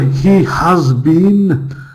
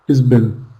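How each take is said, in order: First: He and has are said as full separate words. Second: He and has merge into one short syllable. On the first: The speaker calls it wrong. "This is like the foreign accent" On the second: The speaker calls it right. "that's how we would say it. In fast speech"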